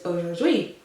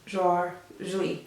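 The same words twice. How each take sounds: First: The word is said smoothly in one go. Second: The word is split into separate syllables.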